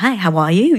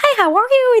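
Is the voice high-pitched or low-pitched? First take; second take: low-pitched; high-pitched. First: It is said in a lower-pitched voice. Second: It is said in a high-pitched voice.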